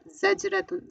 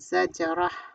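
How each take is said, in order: First: The word ends with a full nunated ending. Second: The word ends cut short on a soft h. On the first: The reader continues without stopping. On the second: The reader stops on this word.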